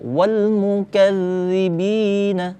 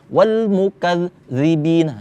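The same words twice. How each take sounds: First: The doubled sound is held without stopping. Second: The voice stops briefly in the middle. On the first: The speaker calls it right. "Tapi tahan aja. ... seperti itu" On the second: The speaker calls it wrong. "Jangan berhenti. ... jangan"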